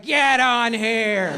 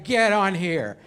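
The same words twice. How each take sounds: First: Put-on very drawn-out, higher drunken insistence; slow, hammed-up holler; drunk friend. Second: Put-on casual drunk-buddy instruction at normal pitch; offhand order from a tipsy driver's pal; understated drunk insistence; drunk friend. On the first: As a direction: stretch every word like a pushy drunk. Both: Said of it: "Waze is your drunk friend".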